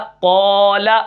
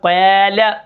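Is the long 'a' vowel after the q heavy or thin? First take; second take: heavy; thin. First: The long vowel is heavy, with a darkened 'aa' sound. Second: The long vowel is thin, with a light 'aa' sound. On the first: The speaker calls it right. "कौफ भी मोटा, अलिफ भी मोटा" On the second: The speaker calls it wrong. "ये नहीं कर सकते कि कौफ को हम मोटा करें, अलिफ को बारीक पढ़ें"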